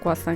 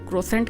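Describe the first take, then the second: First: It is said with kw and no final nt. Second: It is said with an r and final nt. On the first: This is how it is actually pronounced. "Pronounce जो है ना वो थोड़ा सा different करते हैं" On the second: This is how it looks in writing. "इसको क्रोसेंट कहते हैं शायद लिखने में"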